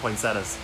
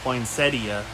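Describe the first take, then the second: First: The 'i' sound before the final 'a' is dropped. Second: The 'i' sound before the final 'a' is heard. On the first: The speaker calls it right. "I don't say the I in poinsettia" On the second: The speaker calls it wrong. "A lot of people really like to pronounce that I"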